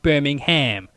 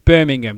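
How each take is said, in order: First: It is said with an American pronunciation. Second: It is said with a British pronunciation. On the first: This is how visiting Americans say it. The speaker calls it wrong. "When you all say it wrong when you come over here" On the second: This is how locals in the UK say it. The speaker calls it right. "over here it's pronounced as"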